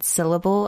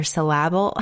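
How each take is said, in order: First: Said in the usual way. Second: "syllable" stressed on the second syllable, sil-LAB-ul; misplaced stress. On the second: Shown as a demonstration. Host joking about repeating herself, "syllable" with stress moved to LAB. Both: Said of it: "a different emphasis on a different syllable".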